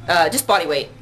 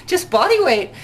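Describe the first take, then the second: First: Said in the usual way. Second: "Just body weight" said high and amused, stress on "body"; laughing insistence. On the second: Retold or imitated. Answering the Twitter question with amused insistence.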